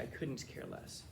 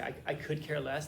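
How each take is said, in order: First: Slow, soft "I couldn't care less" with weight on "couldn't"; correct version, slow. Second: Said in the usual way. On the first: Shown as a demonstration. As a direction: lean gently on "couldn't". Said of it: "It's supposed to be". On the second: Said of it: "That's not the right way to say it".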